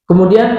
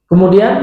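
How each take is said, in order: The two takes are said the same way.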